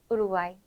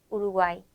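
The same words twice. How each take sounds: Both takes have the same delivery.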